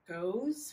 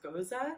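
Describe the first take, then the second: First: It sounds like the English word goes. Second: It does not sound like the word goes. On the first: The speaker calls it wrong. "it's not pronounced Goes, which is how I'd always pronounce it" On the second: The speaker calls it right. "It's Gose"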